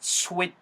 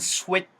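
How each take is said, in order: The two takes are said the same way.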